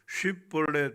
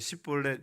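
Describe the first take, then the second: First: The word begins with a sh sound. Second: The word begins with an s sound. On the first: The speaker is not from Ephraim. The speaker calls it right. "쉽볼렛 발음이 안 되고" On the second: The speaker is from the tribe of Ephraim. The speaker calls it wrong. "십볼렛 이렇게 발음하면"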